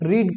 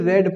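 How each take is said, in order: First: The vowel is long, like in 'reed'. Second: The vowel is short, like in 'red'. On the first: It is the present form of the verb. "First form को जो है रीड पढ़ते हैं" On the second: It is the past form of the verb. "Second को भी रेड पढ़ते हैं, जैसे आर ई डी"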